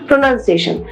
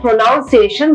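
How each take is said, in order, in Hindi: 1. दूसरा अक्षर 'nun' जैसा सुनाई देता है। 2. दूसरा अक्षर 'noun' जैसा सुनाई देता है। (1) "the correct way to spell out or to say the word is pronunciation" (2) "हम लोग बहुत सारे ऐसे बोलते हैं प्रोनाउंसिएशन, but it is incorrect"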